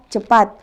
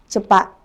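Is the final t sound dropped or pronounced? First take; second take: pronounced; dropped. First: The word ends with a clear t sound. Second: The word ends without the t sound. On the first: This is the standard Indonesian form. "kata cepat" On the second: This is the Makassar-style form. "menjadi kata cepat"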